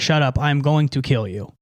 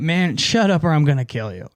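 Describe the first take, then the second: First: It is said in a serious, threatening tone. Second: It is said in a joking, playful tone.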